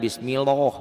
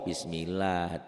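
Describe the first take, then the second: First: The 'lah' sound is thick and dark. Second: The 'lah' sound is thin and light. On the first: The speaker calls it wrong. "jangan bismillah" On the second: The speaker calls it right. "Kenapa dibaca tipis?"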